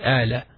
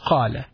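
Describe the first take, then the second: First: The word starts with a glottal stop. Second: The word starts with a deep q sound. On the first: "some Arabs also pronounce the قَاف as a alif" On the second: "The proper Arabic is قَالَ"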